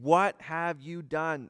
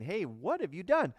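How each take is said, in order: First: It sounds like an accusing statement, not a question. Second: It sounds like a curious, information-seeking question.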